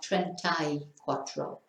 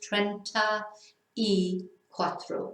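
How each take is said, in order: First: It is said at normal speed, words run together. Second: It is said slowly, each word separate.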